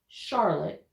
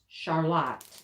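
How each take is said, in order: First: It is said like the Carolina city's name. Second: It is said the local Michigan way. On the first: This names the city in the Carolinas. "not Charlotte, not like, you know, North Carolina" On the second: This names the town in Michigan. "it's Charlotte"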